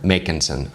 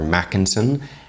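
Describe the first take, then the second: First: The first syllable sounds like make. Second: The first syllable sounds like mac. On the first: The speaker calls it right. "It's Make" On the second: The speaker calls it wrong. "or a Mac"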